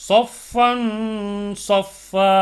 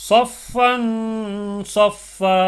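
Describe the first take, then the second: The two takes are said the same way.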